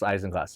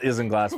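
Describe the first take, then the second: First: Isinglass with a long i, "EYE-zin-glass"; correct pronunciation. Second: Isinglass with a short i, "IZ-in-glass"; spelling pronunciation. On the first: Host teaching co-host the term, Isinglass pronounced "EYE-zin-glass". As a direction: open Isinglass like the word "eyes". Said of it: "it's pronounced Isinglass". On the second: Host correcting co-host on the term, Isinglass read by its spelling, "IZ-in-glass". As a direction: say Isinglass as it's spelled, opening like "is". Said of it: "it's spelled Isinglass". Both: Shown as a demonstration.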